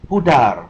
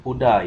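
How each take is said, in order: First: The final R is clearly sounded. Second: The final R is not sounded. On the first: The speaker calls it right. "huruf R itu harus disebutkan" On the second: The speaker calls it wrong. "bukan pudar ya"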